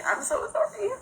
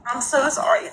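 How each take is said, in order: First: Much higher, softer, cracking on sorry; a sob catching the words; apology breaking up with crying; voice breaking into tears. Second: Said in the usual way. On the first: Real, not acted. Tearful apology while crying.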